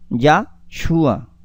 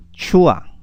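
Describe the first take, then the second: First: Yahshua, stressed on the U. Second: Shua, stressed on the closing A; stress on final A. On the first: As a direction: put the accent of Yahshua on SHU. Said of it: "lleve el acento en la U". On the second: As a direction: put the accent of Shua on its last vowel, A. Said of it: "Con el acento en la A". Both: Shown as a demonstration.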